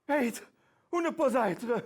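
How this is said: It is said in a fearful, anxious tone.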